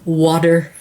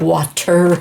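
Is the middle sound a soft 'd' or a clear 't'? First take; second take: soft d; clear t. First: The middle consonant sounds like a soft d. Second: The middle consonant is a clear t sound. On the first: "W A D D E R" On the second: "not water"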